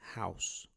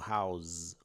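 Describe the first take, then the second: First: The final sound is a hissing s. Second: The final sound is a buzzing z. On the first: The speaker calls it right. "se pronuncia house com S e não com som de Z" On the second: The speaker calls it wrong. "house com Z"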